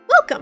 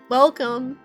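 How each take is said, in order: First: It is said in a plain natural voice. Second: It is said in a sultry seductive voice.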